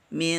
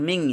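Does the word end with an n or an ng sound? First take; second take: n; ng. First: The word ends with a clear n sound. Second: The word ends with an ng sound. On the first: The speaker calls it right. "min jangan ming" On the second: The speaker calls it wrong. "jangan ming"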